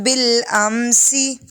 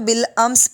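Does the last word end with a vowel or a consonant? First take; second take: vowel; consonant. First: The word ends with a short vowel. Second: The word ends on a consonant. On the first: The reading continues without stopping. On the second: The reader stops at this word.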